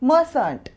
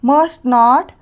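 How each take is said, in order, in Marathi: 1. हा एक आकुंचित शब्द आहे, ज्यात t सायलेंट आहे. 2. हे दोन पूर्ण शब्द म्हणून म्हटले जाते.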